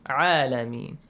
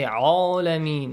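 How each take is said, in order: First: The opening ain sounds light and thin. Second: The opening ain sounds heavy and thick. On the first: The speaker calls it right. "No. عالمين" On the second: The speaker calls it wrong. "عين is not amongst the heavy letters. So don't say عالمين"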